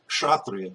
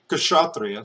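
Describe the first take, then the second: First: The k and sh join with no vowel between. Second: An extra vowel separates the k and sh sounds. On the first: The speaker calls it right. "say kshatriya, because there's no syllable there" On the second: The speaker calls it wrong. "Don't say kshatriya"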